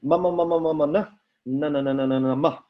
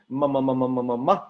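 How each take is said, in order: First: Faster "ma" and "na" syllables; quick nasal drill. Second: Humming "ma" syllables; nasal consonant drill. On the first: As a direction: rattle off "ma" and "na" quickly. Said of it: "No, it's, ah!". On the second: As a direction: hum through each "ma". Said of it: "M and N is a good one". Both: Shown as a demonstration.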